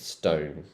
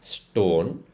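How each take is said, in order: First: It is said with a British accent. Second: It is said with an Indian accent. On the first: The speaker calls it right. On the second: The speaker calls it wrong. "in the Indian accent, this would be pronounced"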